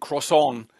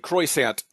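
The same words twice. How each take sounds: First: It is said with a French-like pronunciation. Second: It is said with an exaggerated American accent. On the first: The speaker tries to say it properly. "instead of saying" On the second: The speaker jokes to avoid embarrassment at not saying it properly. "a stronger American accent"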